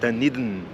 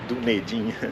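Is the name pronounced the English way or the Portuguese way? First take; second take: English; Portuguese. First: The name is pronounced with English sounds. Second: The name is pronounced with Portuguese sounds. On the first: The speaker calls it right. "A pronúncia correta é" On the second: The speaker calls it wrong. "como a gente falaria em português"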